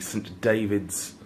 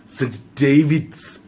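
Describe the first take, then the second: First: It is said in the speaker's ordinary accent. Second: It is said in a put-on Welsh accent.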